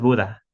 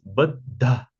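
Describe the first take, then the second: First: The d sound is plain, without aspiration. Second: The d sound is aspirated, with breath. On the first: The speaker calls it wrong. "no es Buda" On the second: The speaker calls it right. "porque tiene una H"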